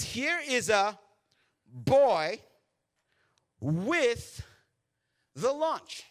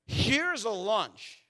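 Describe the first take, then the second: First: Put-on "boy" punched loud, set apart by pauses; word by word, hitting "boy" hardest; stress on BOY. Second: "Here's a lunch" slow, high and loud; drawn-out emphasis on LUNCH. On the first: Preacher correcting what Andrew says, deliberate stress on "boy". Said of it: "He says, what does he say?". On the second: Preacher showing what Andrew did not say, slowly emphatic. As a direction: stretch out "lunch" as one long, raised phrase. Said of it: "Andrew does not say". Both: Shown as a demonstration.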